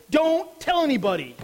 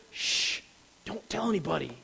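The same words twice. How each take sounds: First: Higher and louder, "tell" hit hard; Jesus sharply orders the disciples to keep silent, forceful; emphatic command. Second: "Shh" whispered, the rest soft and hushed; Jesus hushes disciples about being the Messiah, softly; hushed secret. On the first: Jesus' sudden command after reversal. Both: Acted.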